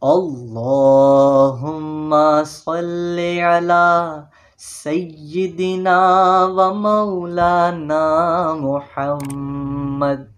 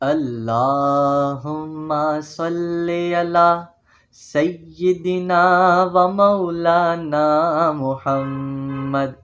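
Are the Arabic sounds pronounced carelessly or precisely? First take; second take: precisely; carelessly. First: The Arabic letters are articulated clearly and precisely. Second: The Arabic letters are pronounced loosely and carelessly. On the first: The speaker calls it right. "अब इसकी सही तर्ज क्या है?" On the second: The speaker calls it wrong. "ये गलत है।"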